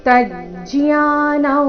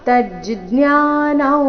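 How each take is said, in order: The two takes are said the same way.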